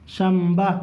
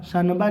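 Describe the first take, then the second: First: شمبہ as sham-ba with a held m; nun read as mim. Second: شنبہ with a clear n before the b; as written. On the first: Teacher shows how to read it, شمبہ said with an m. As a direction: close the lips on a humming m in شمبہ. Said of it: "یہ اس طرح سے پڑھیں گے". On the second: Teacher shows pupils the spelling, شنبہ said with an n. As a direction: sound out the نون in شنبہ as shan-ba. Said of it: "لکھا ہے نا". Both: Shown as a demonstration.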